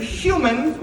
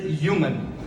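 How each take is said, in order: First: Said in the usual way. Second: "human" said as "yooman"; "human" starting on a Y sound; dropped H. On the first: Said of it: "Instead of human with an H". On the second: Shown as a demonstration. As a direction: drop the H from "human". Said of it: "she pronounces it human".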